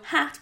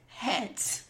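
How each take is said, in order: First: The vowel is an open A sound. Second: The vowel is softened toward an E sound. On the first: "Soften an A into an E sound" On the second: "So hat becomes het"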